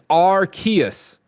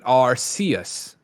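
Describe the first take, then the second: First: The first syllable does not sound like 'arse'. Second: The first syllable sounds like 'arse'. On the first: This is the official pronunciation. The speaker calls it right. "so it doesn't sound like arse" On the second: This is the hosts' own habit. The speaker calls it wrong. "we really like calling it Arceus"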